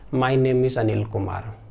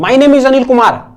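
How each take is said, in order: First: It is said softly, with low intensity. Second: It is said loudly, with high intensity.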